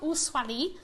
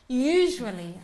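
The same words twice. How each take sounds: First: The middle consonant sounds like a plain 's'. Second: The middle consonant sounds like the 'sh' in shoe. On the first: The speaker calls it wrong. "Not usually" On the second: The speaker calls it right. "Like shoe"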